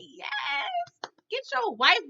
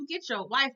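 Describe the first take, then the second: First: Root for him like a fan; cheering shout. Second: Said in the usual way. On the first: Retold or imitated. Cheering Phil on at the screen.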